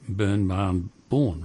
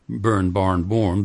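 First: The r sounds after the vowels are dropped. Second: The r sounds after the vowels are pronounced. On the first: "but burn, barn, born" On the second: "Australian doesn't say burn, barn, born"

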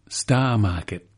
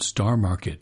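First: It is said in a local Cape Cod accent. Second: It is said in a General American accent. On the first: "She pronounced it so differently" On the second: "the general American Star Market"

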